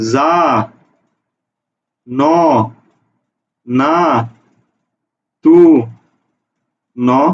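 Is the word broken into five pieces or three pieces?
five pieces. The word is split into five separate pieces. "না এইভাবে উচ্চারণ করো"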